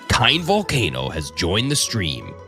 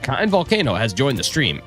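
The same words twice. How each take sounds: First: It is said in a deep Halo announcer voice. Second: It is said in his normal voice.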